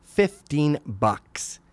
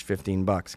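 First: "Fifteen bucks" stretched very slowly, word by word; drawn-out emphasis. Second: Said in the usual way. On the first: Acted. Father balking at tooth price, "Fifteen bucks" very slow and emphatic. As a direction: draw out "Fifteen bucks" in disbelief.

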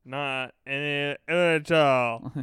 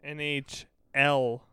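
First: N H L slurred into one drawn-out mush; mouth-full mangling. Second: Said in the usual way. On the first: Shown as a demonstration. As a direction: garble N H L as if your mouth were stuffed. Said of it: "dick and balls in your mouth". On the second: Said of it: "saying it with a freaking".

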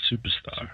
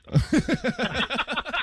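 First: Said in the usual way. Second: Superstar stretched very slow, high and loud; drawn-out announcer call. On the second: Acted. Cohost hyping a friend, a long, high, loud Superstar. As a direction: draw out Superstar like a ring announcer. Repeats a word, then stretches it.

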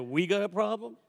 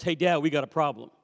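First: "We" picked out as a doubting echo; questioning stress on We. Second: Said in the usual way. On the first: Retold or imitated. Father querying his son's problem, questioning stress on "We". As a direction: throw "We" back as a challenge, ending in a question.

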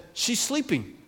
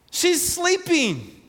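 First: Calm quiet reply. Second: High, slow "She's sleeping" with the voice lifting high and held long; Jesus gently insisting. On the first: Jesus quietly answering the scoffing crowd. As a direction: answer the mockers softly and calmly. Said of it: "Jesus said". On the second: Jesus correcting the mourners, high and slow. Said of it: "And he says". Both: Retold or imitated.

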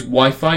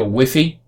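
First: "Wi-Fi" said as WHY-fye; both syllables of "Wi-Fi" rhyme with eye; standard pronunciation. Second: "Wi-Fi" said as WIFF-ee; short i then ee in "Wi-Fi"; alternative pronunciation. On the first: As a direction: say "Wi-Fi" with two long i sounds. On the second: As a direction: say "Wi-Fi" to rhyme with jiffy. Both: Shown as a demonstration. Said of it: "depending on where you are".

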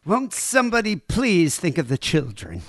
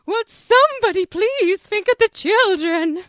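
First: Higher-pitched put-on plea; half-hearted cartoon busybody outcry; Helen Lovejoy impression. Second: High, loud hysterical plea, drawn out; shrieking cartoon do-gooder wife; Helen Lovejoy impression. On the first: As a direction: attempt a fretful minister's wife, less than full force. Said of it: "not gonna be able to do it that good". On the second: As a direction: wail it as a panicked, moralising busybody. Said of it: "our best impression of".

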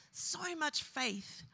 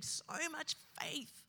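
First: Very slow, held back; even slower, weighed down; grieving. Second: Slow, soft, aching; grieving. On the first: Preacher repeating the friend's faith, very slow. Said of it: "repeat in grief". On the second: Preacher remembering his dead friend's faith, slow and grieving. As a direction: let the grief slow it down. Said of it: "grieving a friend". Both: Real, not acted.

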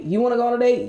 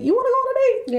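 First: Said in the usual way. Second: Much higher, giddy offer; squeaky excited voice. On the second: Pretend. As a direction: squeal it out eagerly. Eager date offers repeated.

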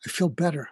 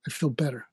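First: Said in the usual way. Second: Much softer, settling; quiet relieved "I feel better"; I feel better, softly. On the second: Retold or imitated. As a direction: let "I feel better" fall away in relief.

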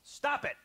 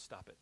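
First: Sudden high yell of "Stop it!". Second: Leaning in, dropping to a low hushed "Stop it."; calm counselor hush on "Stop it."; quiet stop it. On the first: Counselor loses patience and yells at the client. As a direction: blast "Stop it!" at him, much louder and higher. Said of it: "he starts yelling at the guy". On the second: Counselor leans in to the client, hushed and calm. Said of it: "He leans in, he says". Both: Retold or imitated.

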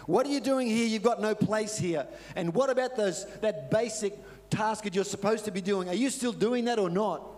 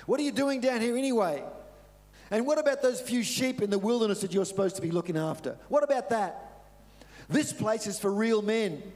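First: Higher, louder scornful scolding; scornful older brother. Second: Higher, louder contemptuous scolding; angry older brother. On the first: Older brother taunting David at camp, scornful. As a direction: look down on the kid brother. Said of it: "but Eliab was saying". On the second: Older brother mocking David for leaving the sheep, angry. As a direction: put the kid brother in his place. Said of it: "And he got angry". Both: Retold or imitated.

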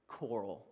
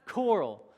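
First: Low, soft single word; low-key reveal. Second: Raised, louder single word; emphatic repeat. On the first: Husband revealing his paint color pick, low and soft. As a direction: drop the voice for a hushed reveal. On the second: Husband repeating his color pick after an ooh, loud and emphatic. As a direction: punch it out higher and louder. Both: Retold or imitated.

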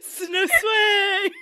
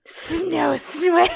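First: Hissed with added S's, high and loud; mock hiss. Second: Hissing the words through laughter, high and loud; laughing hiss attempt. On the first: Podcaster tries hissing Danny's line, mock. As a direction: force a hiss onto the words. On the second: Friend demos how Danny hissed, laughing hard. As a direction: make the S's hiss while cracking up. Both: Shown as a demonstration. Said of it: "How do you hiss that?".

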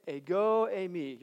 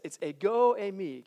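First: Ego eimi slowly, eh-go ay-mee, for the class to repeat; teacher leading a class repetition, slow; slow model ego eimi. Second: Ego eimi said as eh-go ay-mee; teaching a Greek phrase. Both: Shown as a demonstration. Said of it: "Can you say it?".

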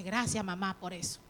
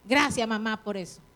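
First: Grateful thanks. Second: Softened thanks. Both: Retold or imitated. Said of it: "Pero hoy usted dice".

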